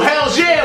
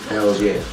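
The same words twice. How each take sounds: First: It is said loudly, with strong force. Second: It is said flat, with little force. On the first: The speaker calls it right. "you got to say it with your chest" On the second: The speaker calls it wrong. "you can't say my name like"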